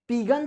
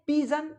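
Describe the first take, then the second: First: The middle consonant is a hard g. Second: The middle consonant is a soft j. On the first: The speaker calls it wrong. "पीगन तो नहीं कहेंगे" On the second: The speaker calls it right. "इसको क्या बोलेंगे, पीजन"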